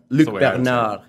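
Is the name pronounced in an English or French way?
French. The name is said with French pronunciation. "The French pronunciation"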